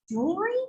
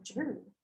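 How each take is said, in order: First: Baffled question. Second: Puzzled echo. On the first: Teacher retelling her baffled reply to the Georgia guy, rising. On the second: Teacher echoing a Georgia guy's word, quietly puzzled. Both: Retold or imitated. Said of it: "And I was like".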